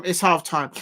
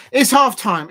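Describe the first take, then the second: First: Said in the usual way. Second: Higher, louder call that it's half time; excited announcement. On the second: Real, not acted. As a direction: announce the break with a burst of energy.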